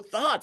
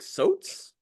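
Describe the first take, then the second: First: The word begins with a th sound. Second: The word begins with an s sound. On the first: This is the word he meant. "He's saying thoughts" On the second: This is how the accented speaker said it. "the way he said words like thoughts"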